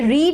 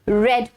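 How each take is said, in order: First: The vowel is a long ee sound. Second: The vowel is a short e sound. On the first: The action happens in the present. The speaker calls it wrong. "रीड नहीं पढ़ेंगे" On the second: The action happened in the past. The speaker calls it right. "बल्कि रेड पढ़ेंगे"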